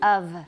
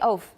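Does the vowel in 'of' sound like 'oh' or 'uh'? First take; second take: uh; oh. First: The vowel sounds like uh. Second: The vowel sounds like oh. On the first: The speaker calls it right. "It's of" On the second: The speaker calls it wrong. "Please don't say oaf"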